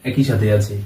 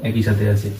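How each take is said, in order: Both takes have the same delivery.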